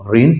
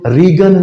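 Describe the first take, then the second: First: No g sound is heard in the word. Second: A g sound is pronounced before the n. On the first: The speaker calls it right. "इसको हम रेन पढ़ते हैं" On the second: The speaker calls it wrong. "हम इसको रीगन नहीं पढ़ते"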